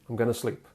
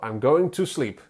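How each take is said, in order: First: The words going to are reduced to gonna. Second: The words going to are said in full. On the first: "You replace going to with gonna" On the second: "going to changes into gonna"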